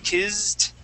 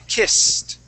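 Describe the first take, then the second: First: It has a Z sound and ends like D. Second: It has an S sound and ends like T. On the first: The speaker calls it wrong. "you gave these two S's a Z sound ... it's going to end like a D" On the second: The speaker calls it right. "That's when we are going to pronounce it like a T"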